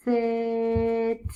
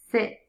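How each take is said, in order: First: "sit" with long hissed s and long vowel; sounded out. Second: Said in the usual way. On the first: Shown as a demonstration. Teacher sounds out a word for new readers, "sit" drawn out. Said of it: "sound it out". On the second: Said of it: "say it fast".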